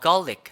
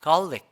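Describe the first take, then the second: Both takes have the same delivery.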